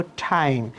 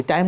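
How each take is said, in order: First: "টাইম" with th-puff, like ঠ; aspirated T. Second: "টাইম" with a hard plain t; no air after the t in "টাইম"; unaspirated T. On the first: Teacher modelling the correct T, aspirated "টাইম". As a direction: release a puff of air on "টাইম". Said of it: "কিন্তু ঠয়ের মতো হবে". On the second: Teacher showing the habit to drop, dry t in "টাইম". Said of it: "টাইম না বলে". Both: Shown as a demonstration.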